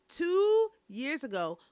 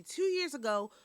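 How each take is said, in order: First: TWO drawn out, high and loud; stress on TWO. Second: Said in the usual way. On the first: Real, not acted. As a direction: hit "two" hard and stretch it out. Repeats the phrase for emphasis.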